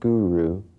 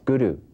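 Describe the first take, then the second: First: The R is not tapped with the tongue. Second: The R is a single flicked tongue tap. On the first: The speaker calls it wrong. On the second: The speaker calls it right. "It's a single rolled R"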